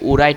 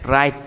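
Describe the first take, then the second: First: The word begins with a w sound. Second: The word begins with an r sound. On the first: The speaker calls it wrong. "তুমি যদি পড়তে চাও তাহলে কি উরাইট হয়ে যায়" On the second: The speaker calls it right. "এখানে কিন্তু ডব্লিউটা উচ্চারণ হবে না"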